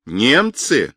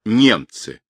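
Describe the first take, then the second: First: НЕМЦЫ with a big rise and fall; wailing cry. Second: НЕМЦЫ said briefly with a small fall; wailing cry. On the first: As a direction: draw out НЕМЦЫ as a landlady's indignant cry. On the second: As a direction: toss off НЕМЦЫ as part of an indignant outcry. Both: A narrator's reading. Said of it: "перекрывающий его вопленный крик хозяйки".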